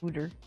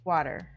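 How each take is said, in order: First: The first vowel is a rounded 'woo' sound. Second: The first vowel is an open 'wah' sound. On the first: The speaker calls it wrong. "don't say wooter" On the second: The speaker calls it right. "It's water"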